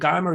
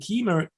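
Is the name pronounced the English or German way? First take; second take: German; English. First: The name is pronounced with German sounds. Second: The name is pronounced with English sounds. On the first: "Keimer is in German language" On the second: "Keimer is an English language"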